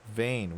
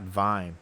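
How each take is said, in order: First: The vowel sounds like the one in 'vein'. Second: The vowel sounds like the one in 'vine'. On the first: The speaker calls it right. "Vein, not Vine" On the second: The speaker calls it wrong. "not Vine"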